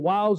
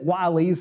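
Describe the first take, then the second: First: The word is said with one syllable. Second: The word is said with two syllables. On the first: The speaker calls it right. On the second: The speaker calls it wrong.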